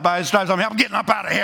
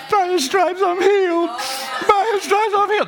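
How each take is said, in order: First: Plain, matter-of-fact confidence; casual sure-footed faith; spirit of faith. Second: Pious sing-song; without the spirit of faith. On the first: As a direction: say it like you're already getting up. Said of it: "Spirit of faith is laying about". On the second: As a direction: recite it in a lofty voice, without belief. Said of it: "That's not the spirit of faith". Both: Shown as a demonstration.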